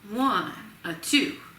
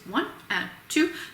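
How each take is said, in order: First: The beats are split long-short with a lilt. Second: The beats are split into equal, even halves. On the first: "Now let it relax" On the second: "I'm making a very square little subdivision inside of each of those beats"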